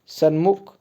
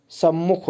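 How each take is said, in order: First: सन्मुख with an n before the m; wrong form. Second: सम्मुख with a held double m; correct form. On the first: Teacher showing the wrong spelling, सन्मुख with n. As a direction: say सन्मुख with a separate n. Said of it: "सन्मुख नहीं होता". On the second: Teacher correcting the class, सम्मुख with doubled m. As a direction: lengthen the mm in सम्मुख. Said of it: "सम्मुख होता है". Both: Shown as a demonstration.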